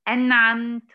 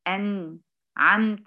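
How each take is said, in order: First: The next sound follows the n with no break. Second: There is a short break after the n. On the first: The speaker calls it right. "نطق حرف الإظهار اللي هو بعد النون مباشرة بدون فاصل زمني أو سكت، يعني أقول إيه؟" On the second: The speaker calls it wrong. "ما أقولش أنعمت، أنعمت، لا، ما أعملش الفاصل ده"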